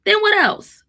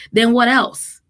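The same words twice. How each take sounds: First: "Then what else?" asked much higher, pressing; emphatic question. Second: Said in the usual way. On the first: Real, not acted. Mom challenging her listeners, pitched high.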